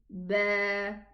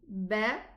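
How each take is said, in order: First: The vowel is held about twice as long. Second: The vowel is short and quick. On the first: "extend it a little bit and say ba, double the time" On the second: "here we say ba"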